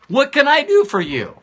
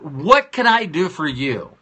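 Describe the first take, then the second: First: Eager high ask. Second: Said in the usual way. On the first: Shown as a demonstration. Speaker urging listeners to ask loved ones, eager high plea. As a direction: lift the repeat much higher and a bit louder. Repeated ask, pushed higher.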